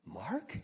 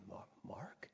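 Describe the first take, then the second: First: Soft question swooping sharply upward; incredulous, quiet mom; astonished mother. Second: Whispered, hesitant question; tentative whisper; hushed, puzzled mother. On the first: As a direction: ask it in rising disbelief. Mother asks again, astonished. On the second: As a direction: whisper it like an unsure, sleepy mom. Sleepy mother surprised to see him. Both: Retold or imitated.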